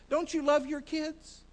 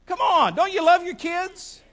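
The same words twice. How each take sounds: First: Said in the usual way. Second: Loud, raised-pitch appeal to the crowd; rousing challenge. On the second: Real, not acted. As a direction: push the congregation for an answer. Pressing congregation for a louder response.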